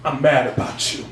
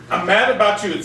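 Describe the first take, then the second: First: Low baritone, firm weight on mad; said very strongly. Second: Said in the usual way. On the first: Retold or imitated. Telling the woman across the table, said very strongly. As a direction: plant the word mad like a vow. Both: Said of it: "said very strongly".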